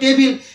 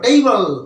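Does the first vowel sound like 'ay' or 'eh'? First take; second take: eh; ay. First: The first vowel is a short 'eh' sound. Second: The first vowel is a gliding 'ay' sound. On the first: The speaker calls it wrong. "এর সঠিক উচ্চারণ কিন্তু টেবিল নয়" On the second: The speaker calls it right. "এর সঠিক উচ্চারণ হলো টেইবল"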